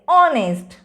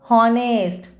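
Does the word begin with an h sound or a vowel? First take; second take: vowel; h sound. First: The word begins with a vowel, h silent. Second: The word begins with a pronounced h sound. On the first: The speaker calls it right. "The correct pronunciation is honest" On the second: The speaker calls it wrong. "We don't say"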